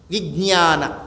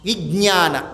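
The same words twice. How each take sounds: First: The middle cluster has no clear 'j' sound. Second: The middle cluster has a clear 'j' sound. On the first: The speaker calls it right. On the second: The speaker calls it wrong.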